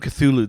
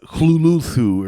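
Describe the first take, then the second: First: The name is said in its common pronunciation. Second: The name is said in an unusual alternative pronunciation. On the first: "the way I'm pronouncing it is not the way Lovecraft pronounced it" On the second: "It's supposed to be more like uh Hluluthu or something"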